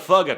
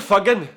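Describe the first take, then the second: First: It is said in an American English accent. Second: It is said in a Scottish accent, strong g. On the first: "What about uh, American?" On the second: "What about Scottish? ... the G really does stand out"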